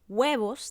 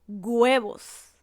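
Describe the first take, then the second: First: The word is said with its standard sounds. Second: One letter's sound in the word is changed. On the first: The speaker calls it right. "en vez de decir huevos" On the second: The speaker calls it wrong. "cambiamos la pronunciación de una letra"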